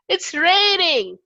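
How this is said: It sounds happy.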